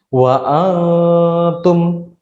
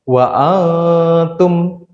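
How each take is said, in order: The two takes are said the same way.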